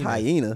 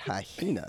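First: The word is said without an extra h sound. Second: The word is said with an extra h sound. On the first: The speaker calls it right. "I thought it was just hyena" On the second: The speaker calls it wrong. "that extra H you put in there sound, you said hyena"

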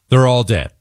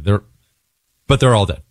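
First: It is said bluntly and harshly. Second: It is said softly and gently. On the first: The speaker calls it wrong. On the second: The speaker calls it right.

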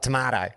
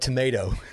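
First: Tomato is said with a British pronunciation. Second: Tomato is said with an American pronunciation. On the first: "not tomato" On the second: "Americanized tomato and called it tomato"

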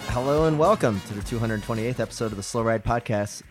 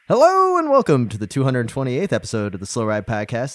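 First: It is said with little energy. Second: It is said with lots of energy.

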